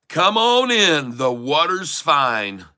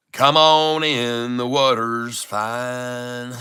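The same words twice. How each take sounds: First: High, drawn-out country holler. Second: Very slow, stretched-out country drawl. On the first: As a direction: call it out slowly in a country drawl, swooping down. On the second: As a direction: hold each word long in a level country twang. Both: Shown as a demonstration. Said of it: "Don't let me get my country voice".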